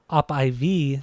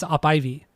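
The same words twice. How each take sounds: First: The final vowel is long and stressed. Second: The final vowel is short and unstressed. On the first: It names a drip going into the arm. "that's like a you know an I V going into your arm" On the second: It names the climbing plant. "when you say I V like the plant, the the E part is shorter"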